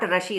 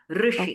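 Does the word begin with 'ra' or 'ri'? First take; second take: ra; ri. First: The first syllable is said as 'ra'. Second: The first syllable is said as 'ri'. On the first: The speaker calls it wrong. "not Rashi" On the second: The speaker calls it right. "no A also. Rishi"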